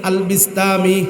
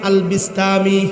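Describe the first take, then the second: The two takes are said the same way.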